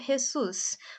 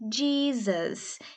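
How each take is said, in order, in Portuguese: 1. É pronunciado com pronúncia espanhola. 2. É pronunciado com pronúncia inglesa. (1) "no México se pronuncia Jesus. Por isso que ele pronunciou com esse som de R" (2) "em inglês a pronúncia é Jesus"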